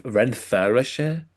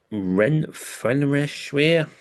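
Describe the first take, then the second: First: Slow, questioning Renfrewshire rising at the end; unsure pronunciation. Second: Drawn-out Renfrewshire in a mock Scottish accent; put-on Scottish accent. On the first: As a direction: try Renfrewshire again slowly, asking if it's right. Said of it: "Is that how you say it?". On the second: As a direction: stretch out Renfrewshire with a Scottish lilt. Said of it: "I've put a bit of an accent into it". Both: Shown as a demonstration.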